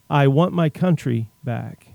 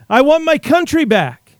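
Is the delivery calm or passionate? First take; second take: calm; passionate. First: It is said in a calm, plain way. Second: It is said with passion and energy.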